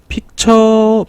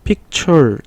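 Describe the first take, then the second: First: The word ends without an r sound. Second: The word ends with an added r sound. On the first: "픽처라고 보통 하고요" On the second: "약간 리을 발음을 더 들어가면"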